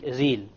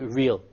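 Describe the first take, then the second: First: The R is a tongue-tip Arabic R. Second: The R is a soft English R. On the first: The speaker calls it wrong. "if I said real with the Arabic Ra, it will become real" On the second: The speaker calls it right. "It's not going to be real"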